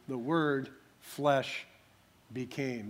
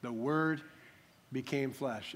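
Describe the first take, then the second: First: "flesh" drawn out, pause before "became"; slow down and set "flesh" apart; stress on flesh. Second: Said in the usual way. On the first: Shown as a demonstration. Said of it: "The emphasis is on the flesh". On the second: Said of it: "In the Greek, it would actually read".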